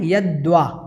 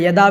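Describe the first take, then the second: First: A clear 'v' sound follows the 'd'. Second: No 'v' sound follows the 'd'. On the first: The speaker calls it right. "यद्वा आपको बोलना है यद्वा" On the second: The speaker calls it wrong. "या यदा भी बोल देते हैं, ऐसा ठीक नहीं है"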